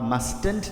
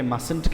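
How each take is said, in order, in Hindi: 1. s के बाद t की आवाज़ बोली जाती है। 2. s के बाद t की कोई आवाज़ नहीं बोली जाती। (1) "आप मस्टेंट ना कहें" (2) "बल्कि मसंट कहें"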